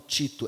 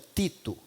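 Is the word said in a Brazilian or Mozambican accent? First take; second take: Brazilian; Mozambican. First: It is said in a Brazilian Portuguese accent. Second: It is said in a Mozambican Portuguese accent. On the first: "lá eles não falam Tito" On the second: "como diz em Moçambique"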